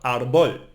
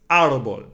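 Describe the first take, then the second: First: "árbol" wrongly stressed on BOL; wrong final stress. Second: "árbol" punched on AR, falling after it; first-syllable stress. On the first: Teacher warning learners with a mistake, "árbol" stressed on BOL. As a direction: push the stress onto the last syllable of "árbol". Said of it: "Not árbol". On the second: Teacher showing learners the accented syllable, "árbol" stressed on AR. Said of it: "we need to emphasize this syllable". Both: Shown as a demonstration.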